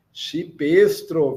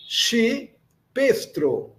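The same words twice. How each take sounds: First: Said in the usual way. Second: Chipestro very slow, CHI higher, pause, then PESTRO; slow dictation of Chipestro, split in two; syllable by syllable. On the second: Shown as a demonstration. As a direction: break Chipestro after CHI for learners. Teacher splits new word into syllables.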